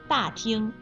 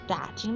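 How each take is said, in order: First: Falling first syllable, high level second syllable. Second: Low first syllable, light neutral second syllable. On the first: It means a large hall. "大是4 声，听是1 声" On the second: It means to ask around. "打是3 声，听是轻声"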